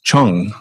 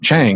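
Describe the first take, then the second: First: The vowel is 'u' as in 'hung'. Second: The vowel is an open 'a' as in 'bang'. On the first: This is the actual local pronunciation. "it's actually pronounced Chung" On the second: This follows the spelling. "Chang as it's spelled"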